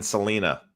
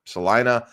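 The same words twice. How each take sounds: First: "Salina" said sa-LEE-na, the middle like "see"; Salina the wrong way. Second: "Salina" said sa-LYE-na, the middle like "lie"; a grudging sa-LYE-na for "Salina"; corrected Salina. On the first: Real, not acted. Host reading out a home sale, saying "Salina" as sa-LEE-na. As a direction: stress the long EE in "Salina", sa-LEE-na. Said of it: "Salina, my friend, Salina". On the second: Shown as a demonstration. Host giving in to the co-host, saying "Salina" as sa-LYE-na. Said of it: "so we're gonna Salina".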